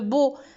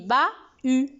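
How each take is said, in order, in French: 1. Les voyelles du milieu se fondent en un seul son. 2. Les voyelles du milieu se prononcent en deux sons. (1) "s'il n'y avait pas du H, on aurait dû le beau" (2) "avec H, on dit ba-u"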